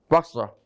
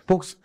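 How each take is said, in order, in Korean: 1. 첫 모음은 입을 크게 벌린 'ah'예요. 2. 첫 모음은 둥글게 오므린 'oh'예요.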